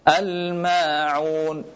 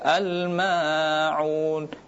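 First: The long vowel is held for two counts only. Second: The long vowel is stretched beyond two counts. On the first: The speaker calls it right. "dua harakat saja" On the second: The speaker calls it wrong. "tidak boleh dibaca al-ma'un"

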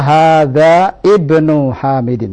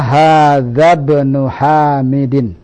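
First: The initial vowel of ibnu is pronounced separately. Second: The vowel is dropped, linking hadza straight to bnu. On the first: The speaker calls it wrong. "tidak boleh salah kalau kita baca hadza ibnu Hamidin, salah" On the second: The speaker calls it right. "Yang benar adalah hadza ibnu Hamidin"

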